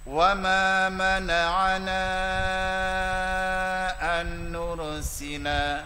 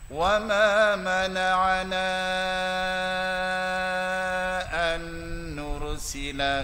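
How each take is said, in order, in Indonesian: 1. Vokal panjang ditahan selama empat harakat. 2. Vokal panjang ditahan selama enam harakat. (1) "Saya baca empat" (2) "Saya ambil enam"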